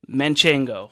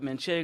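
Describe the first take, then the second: First: An extra n sound comes before the g. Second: No n sound comes before the g. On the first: The speaker calls it wrong. "most mispronounced cheese in the world" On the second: The speaker calls it right. "No N in the middle"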